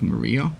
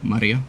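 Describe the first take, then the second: First: The name is said with an English pronunciation. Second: The name is said with a Japanese pronunciation. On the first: "more English, like Maria" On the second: "like the Japanese say"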